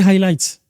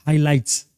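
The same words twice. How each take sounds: First: The word is said with an English accent. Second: The word is said with a French accent. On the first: The speaker calls it right. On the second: The speaker calls it wrong.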